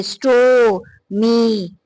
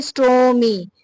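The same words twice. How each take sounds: First: store, मी in two long, separate beats; split into syllables. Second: Said in the usual way. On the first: Shown as a demonstration. Teacher showing two vowel sounds, store and मी held separately. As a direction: stretch store, pause, then stretch मी. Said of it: "ये देखिए, एक ओ है". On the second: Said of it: "ये double syllables".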